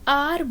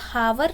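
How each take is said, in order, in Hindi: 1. शब्द स्वर से शुरू होता है, h नहीं है। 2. शब्द एक सुनाई देने वाले h से शुरू होता है। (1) "यहाँ पे हम मैंने आर बोला" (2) "हावर नहीं बोला"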